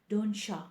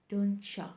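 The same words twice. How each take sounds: Both takes have the same delivery.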